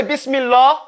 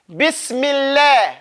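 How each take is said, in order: First: Bismillah with a heavy, rounded lam; wrong heavy lam. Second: Slow Bismillah with a thin lam; light lam. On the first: Teacher showing the mistake to avoid. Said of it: "You don't say". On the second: Teacher modelling lam after a kasra. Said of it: "when it's a kasra". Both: Shown as a demonstration.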